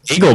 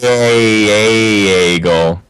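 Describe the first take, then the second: First: The A is said mildly, in his own accent. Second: The A is exaggerated, in a Minnesota accent.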